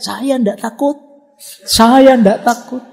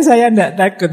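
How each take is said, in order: First: High, loud frightened yell of denial; scared yelling. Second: Mock yell. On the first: Retold or imitated. Scared friend at the toilet at night, yelling high. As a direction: yell it out, terrified but pretending not to be. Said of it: "dia teriak-teriak".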